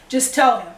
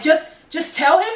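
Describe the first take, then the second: First: Easy, reassuring suggestion with a falling end; imitated calming. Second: Retold disbelief, higher with a rising end; incredulous echo. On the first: Girlfriend advising a scared partner about the father, imitated calm. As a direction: say it as mild, retold reassurance. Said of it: "She's calming me down". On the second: Scared teen answering the girlfriend's easy advice, imitated incredulity. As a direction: throw the advice back as a stunned question.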